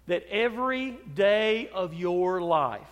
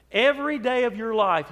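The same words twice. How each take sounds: First: Said in the usual way. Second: Louder emphatic repeat. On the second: Acted. Preacher pressing the congregation, louder and emphatic. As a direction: repeat it louder, leaning on every.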